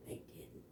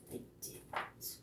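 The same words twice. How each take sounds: First: Second whisper, even softer; faint whispered echo. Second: Breathless whisper; hushed whispered repeat. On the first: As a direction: barely breathe the words. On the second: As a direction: whisper it like a secret. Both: Shown as a demonstration. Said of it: "repeated line, dropped to whisper".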